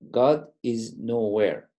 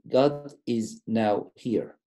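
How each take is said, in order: First: The last part is said as one word. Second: The last part is split into two words. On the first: God does not exist anywhere. "We can read it like this" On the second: God is present at this moment. "we divided them differently"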